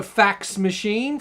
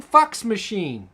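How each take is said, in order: First: "fax machine" with an open short a in fax; Australian short A. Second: "fucks machine" as Kiwi fax machine; New Zealand short A. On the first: Contrasting accents for viewers, "fax machine" with Australian a. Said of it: "A is pronounced ah". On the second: Contrasting accents for viewers, "fucks machine" as Kiwi fax. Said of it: "In New Zealand, it's ah". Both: Shown as a demonstration.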